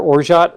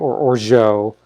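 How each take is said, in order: First: The word ends with a clear T sound. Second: The word ends without a T sound. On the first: "I pronounce the T" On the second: "I know a number of people that do not"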